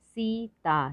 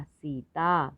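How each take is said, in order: First: सीता split as high long सी, then ता; syllable by syllable. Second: Said in the usual way. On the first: Shown as a demonstration. Teacher sounding out सीता for learners, syllable by syllable. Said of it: "थोड़ा ज़्यादा समय लगता है". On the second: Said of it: "तो शब्द पढ़ते हैं".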